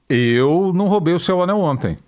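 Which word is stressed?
eu. The word eu carries the stress. Someone else might have taken it. "O Anselmo eu não sei"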